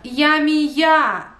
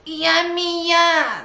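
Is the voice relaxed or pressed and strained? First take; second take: relaxed; pressed. First: Relaxed whiny tone, as if slightly offended. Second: Pressed, strained tone, squeezed in the throat.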